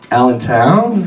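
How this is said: The voice rises at the end like a question. It is given in the form of a question. The speaker calls it right.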